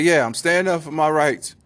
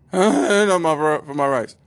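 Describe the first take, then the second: First: Said in the usual way. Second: High, loud cracked squeak on a mock declaration; comic voice crack while acting brave. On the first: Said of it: "at the same time terrified". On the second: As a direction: imitate a terrified man whose voice breaks. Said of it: "Voice cracked and whatnot".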